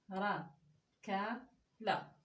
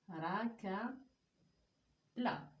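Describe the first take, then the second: The two takes are said the same way.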